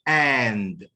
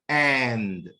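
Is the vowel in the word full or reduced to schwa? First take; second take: full; full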